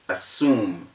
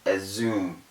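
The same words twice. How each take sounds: First: The middle consonant is a hissing s sound. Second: The middle consonant is a buzzing z sound. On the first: The speaker calls it right. "the word is assume, ... It is assume because the S's are two" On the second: The speaker calls it wrong. "not assume"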